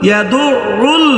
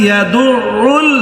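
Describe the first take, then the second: Both takes have the same delivery.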